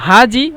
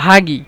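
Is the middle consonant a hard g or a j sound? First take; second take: j; g. First: The middle consonant is a soft j sound. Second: The middle consonant is a hard g sound.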